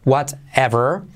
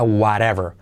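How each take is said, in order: First: The middle T is a clear t sound. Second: The middle T is a soft r-like tap.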